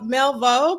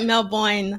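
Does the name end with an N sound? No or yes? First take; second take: no; yes. First: The name ends without a final N sound. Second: The name ends with a final N sound. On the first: The speaker calls it wrong. "You say Melvo" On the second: The speaker calls it right. "but it's like Melvoin"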